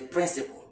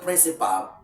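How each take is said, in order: First: The vowel before the final L is silent. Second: The vowel before the final L is sounded. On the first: The speaker calls it right. "this vowel letter here, is silent" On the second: The speaker calls it wrong. "It's a wrong pronunciation"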